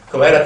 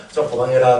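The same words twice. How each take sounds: First: 그만해라 raised in a sharper rising call; louder, rising 그만해라. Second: Said in the usual way. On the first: Retold or imitated. Father scolding his gaming son, louder. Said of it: "해도". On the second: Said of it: "해도 하고".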